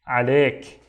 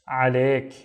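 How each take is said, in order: No difference in how they are said.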